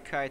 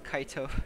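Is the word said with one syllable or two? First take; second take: one; two. First: It is said as one syllable, English style. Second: It is said as two syllables, Japanese style. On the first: "They don't say kite" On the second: "it's Kaito. It's fun how Japanese pronounce certain words"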